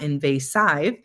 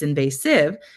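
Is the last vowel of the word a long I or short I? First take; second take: long I; short I. First: The final vowel is a long I sound. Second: The final vowel is a short i sound. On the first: The speaker calls it wrong. "It's not saying a long I sound. It's not invasive" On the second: The speaker calls it right. "It's invasive"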